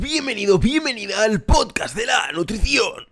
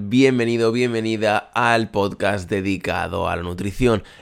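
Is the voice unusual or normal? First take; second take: unusual; normal. First: It is said in an unusual, put-on voice. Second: It is said in a normal voice.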